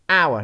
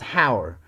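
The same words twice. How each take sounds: First: The word starts with no h sound. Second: The word starts with an audible h sound. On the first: The speaker calls it right. "Silent H" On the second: The speaker calls it wrong. "not hour"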